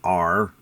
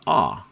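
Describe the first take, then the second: First: A strong rhotic R sound is pronounced. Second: An open ah vowel replaces the R. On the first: "So in America, right, we're like R" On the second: "in British accent, it's more of a ah"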